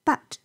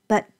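First: Said in the usual way. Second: "but" reduced to a short schwa, buht; weak form. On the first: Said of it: "But我们可以弱读成为but". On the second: Shown as a demonstration. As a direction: say "but" lightly, unstressed. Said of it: "我们可以弱读成为but".

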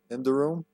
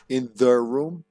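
First: Said in the usual way. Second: "the" drawn out and punched; stress on "the". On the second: Shown as a demonstration. Player underlining the game's title, with "the" stressed. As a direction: lean heavily on "the" before "room".

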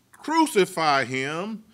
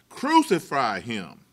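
First: Chanted, crowd cry, slow, rising at the end; chanted, drag it out like a mob calling, rising; mock crowd chant. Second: Chanted, crowd cry, slow, dropping at the end; chanted, let the mob's call land downward; mock crowd chant, falling. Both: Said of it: "by crying out".

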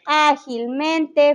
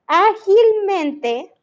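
First: Ágilmente said slowly and evenly, no rise; slow example. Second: Ágilmente drawn out slowly, rising high on the end; stressed example. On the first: Teacher repeating the example to the class, slow and level. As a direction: lay out Ágilmente calmly, syllable by syllable. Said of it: "muchas palabras que terminan en mente". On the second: Teacher giving the class an example word, slow and rising. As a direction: model ágilmente, lifting the pitch as you stretch it. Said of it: "por ejemplo". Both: Shown as a demonstration.

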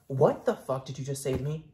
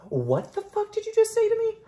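First: Said in the usual way. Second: Much higher and louder, sassy shriek; outraged squeal at the doll; shrill mock outrage. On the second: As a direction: shriek it in fake indignation.

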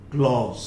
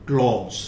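No difference in how they are said.

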